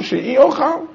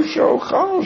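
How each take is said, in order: First: "she'iochal" with the little i sound added after she; reading with inserted yud she'iochal. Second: "she'ochal" without the yud, pitched high and soft; plain reading she'ochal. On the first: Teacher proposing the emended reading for the class, clear demo. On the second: Teacher showing the Mishnah's word before inserting the yud, clear demo. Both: Shown as a demonstration. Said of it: "insert that little yudid".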